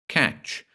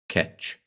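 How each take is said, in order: First: It is said the standard way. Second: It is said in a local dialect pronunciation.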